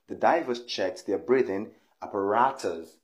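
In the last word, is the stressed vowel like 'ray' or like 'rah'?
rah. The stressed vowel in the last word sounds like 'rah'. This is the American pronunciation.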